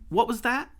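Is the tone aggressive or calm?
calm. The question is asked in a calm tone. The speaker calls it right. "I do it in a calm tone like"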